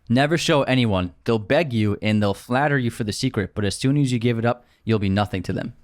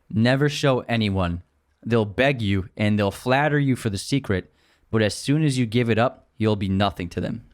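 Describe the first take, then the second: First: It is said at a normal pace. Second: It is said more slowly.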